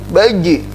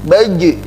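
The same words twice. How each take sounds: The two takes are said the same way.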